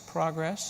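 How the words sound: It is said the non-Canadian way.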